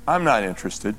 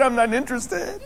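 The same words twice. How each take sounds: First: Low, mild, matter-of-fact brush-off; nicely said refusal. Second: High, amused echo of a refusal; laughing requote. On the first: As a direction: turn it down politely, pitched low. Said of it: "They just nicely said". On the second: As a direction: quote it in a high voice through a laugh. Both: Retold or imitated.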